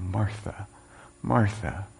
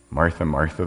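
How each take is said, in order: First: Soft, gentle calling of her name; softer, tender Martha, Martha; caring Jesus. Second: Said in the usual way. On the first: Acted. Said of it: "Jesus' response is one that's full of care". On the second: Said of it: "the Lord answered".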